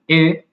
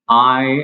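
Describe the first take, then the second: First: The vowel is short, like 'ih'. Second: The vowel is long, like the letter name. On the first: "I tends to be like the short sound" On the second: "I is the long sound"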